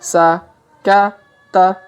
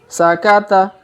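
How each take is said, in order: First: It is said slowly, syllable by syllable. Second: It is said quickly as one joined word. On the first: "Kita baca pelan-pelan" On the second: "Kalau dipercepat"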